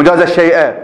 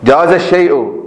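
First: الشيء ending in a short "a" vowel; accusative ending. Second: الشيء ending in a short "u" vowel; nominative ending. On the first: Teacher rejecting the object reading, الشيء ending in -a. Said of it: "الشيء هو الذي جاز". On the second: Teacher giving the subject reading, الشيء ending in -u. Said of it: "نفس الشيء هو الذي جاز". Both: Shown as a demonstration.

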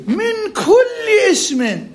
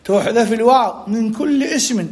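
First: "من كل اسم" very high and drawn out; exaggerated emphasis. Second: Said in the usual way. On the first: Shown as a demonstration. Teacher underlining a universal rule, "من كل اسم" stretched high. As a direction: hold "كل" long on a much higher pitch.

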